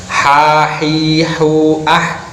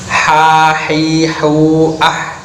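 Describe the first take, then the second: The two takes are said the same way.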